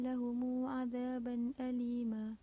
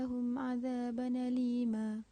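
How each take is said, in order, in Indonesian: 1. Lahum berakhir dengan vokal u panjang tambahan. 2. Hamzah hilang; n menyambung ke alima. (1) "qalun dengan silah mim jamak" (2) "naqal pada azaban alima"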